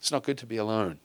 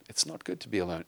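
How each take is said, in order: First: Said in the usual way. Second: Put-on "It's not good to be alone" said softer and lower, calmly to a child; gentle parental reply. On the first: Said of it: "we've gotta teach our children". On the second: Shown as a demonstration. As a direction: answer the sulking kid softly. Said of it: "Kid says".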